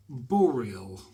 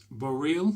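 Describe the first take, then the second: First: Said in the usual way. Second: Boreal? rising like a puzzled question, louder; Boreal? said back to himself with a questioning rise. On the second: Shown as a demonstration. Reading the brush maker's name, puzzled by Boreal?. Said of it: "Do you think they're trying to be like L'Oreal?".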